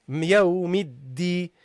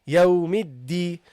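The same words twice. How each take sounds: Both takes have the same delivery.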